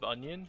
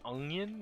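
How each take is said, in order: First: The word has an ordinary, everyday pronunciation. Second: The word has an unusual, imitated pronunciation. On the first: This is how the rest of the family says it. "instead of onion" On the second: This is how a family member says it. "she says onion"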